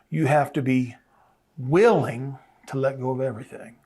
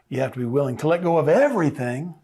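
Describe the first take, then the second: First: The stress falls on the word willing. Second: The stress falls on the word everything. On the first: Readiness to release matters most. The speaker calls it right. "my emphasis is on the willingness" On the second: The amount to be released matters most. The speaker calls it wrong. "emphasis is not on what I have to let go"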